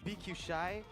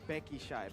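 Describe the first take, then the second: First: BQ is spoken as two separate letters. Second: BQ is spoken as one word, Becky. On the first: This is how the local casters say it. "the way we pronounce B Q Shy" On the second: This is how Indonesians say it. "I understand why the Indonesians say Becky Shy"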